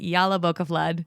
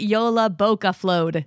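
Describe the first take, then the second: First: The last part sounds like 'flood'. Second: The last part sounds like 'flowed'. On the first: The speaker calls it wrong. "I announced it incorrectly" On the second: The speaker calls it right. "they pronounce it"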